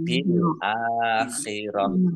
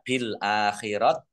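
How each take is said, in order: First: The last word ends with an h sound. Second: The last word ends with a t sound. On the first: The speaker calls it right. "Karena wakof maka dibaca sukun dan dibaca hak" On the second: The speaker calls it wrong. "Jadi tidak bil akhirat"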